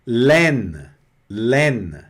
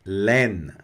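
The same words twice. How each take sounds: First: Laine with open è and n end; French laine. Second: Laine slow, open è; French laine. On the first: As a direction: say laine as len. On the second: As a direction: len. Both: Shown as a demonstration. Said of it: "A mais I é laine".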